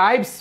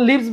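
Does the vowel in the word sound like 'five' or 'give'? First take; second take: five; give. First: The vowel sounds long, like in 'five'. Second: The vowel sounds short, like in 'give'. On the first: It is the plural of life. The speaker calls it right. "এখানে লাইভস হবে" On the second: It means to live, as a verb. The speaker calls it wrong. "লিভস বলবো কি বাস করা বুঝাতে"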